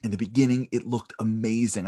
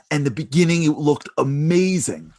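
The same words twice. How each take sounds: First: Said in the usual way. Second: Building excitement. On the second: Shown as a demonstration.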